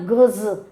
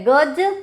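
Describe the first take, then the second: First: "गज" ending in a buzzing z; ज़ वाला गज. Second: "गज" with a plain j at the end; ज वाला गज. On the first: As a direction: say "गज" as gaz, the measuring word. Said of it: "गज का मतलब होता है नपती". ("गज" के अंत में ज़ की ध्वनि) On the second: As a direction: say "गज" ending in a hard j, as for the elephant. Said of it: "गज का मतलब होता हाथी". ("गज" के अंत में साफ़ ज) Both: Shown as a demonstration.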